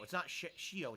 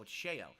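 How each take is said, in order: First: Shio said as shee-oh; the wrong version, Shio like shee-oh; wrong take Shio. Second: Sheo said as shay-oh; right take Sheo. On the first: Streamer checking the name, Shio said shee-oh. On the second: Streamer correcting himself, Sheo said shay-oh. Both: Shown as a demonstration.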